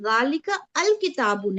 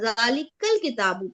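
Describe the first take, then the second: First: The 'a' of 'al' is sounded as its own syllable. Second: The 'a' of 'al' is dropped and words are linked. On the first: The speaker calls it wrong. "हम इसे जालिका अल किताबू नहीं पढ़ेंगे" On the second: The speaker calls it right. "बल्कि जाल जालिकल किताबू पढ़ेंगे"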